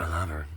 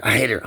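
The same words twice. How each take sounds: First: Soft, sinking declaration of love; subdued love. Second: Loud burst of hate; hateful outburst. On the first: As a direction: retreat softly into affection. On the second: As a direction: spit out real resentment, louder. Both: Real, not acted. Flips between hating and loving her.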